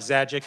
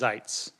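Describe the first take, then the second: First: The name is read as spelled, two syllables. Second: The name is said as one syllable. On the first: This is how the spelling suggests it. The speaker calls it wrong. "it looks like Zajic" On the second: This is how the name is really said. The speaker calls it right. "but it's Zeitz"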